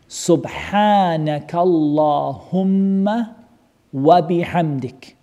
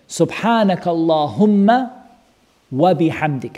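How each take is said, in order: First: The phrase is spoken very slowly. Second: The phrase is spoken at a normal pace.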